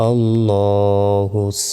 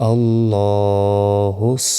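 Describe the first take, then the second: The two takes are said the same way.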